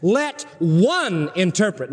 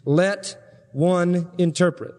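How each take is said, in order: First: One set apart and weighted, slow; one said slowly and firmly; stress on one. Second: Said in the usual way. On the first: Shown as a demonstration. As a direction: lean on the word one. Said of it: "emphasizes the word one". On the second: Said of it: "I want to emphasize something".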